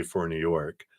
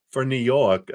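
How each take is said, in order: First: Said in the usual way. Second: A hint of a New York accent, slightly raised pitch; badly faked New York accent; attempted New York accent. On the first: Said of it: "I would do a New York accent and say". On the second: Shown as a demonstration. Tarot reader trying out a New York accent she says she can't do. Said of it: "I can't do a New York accent".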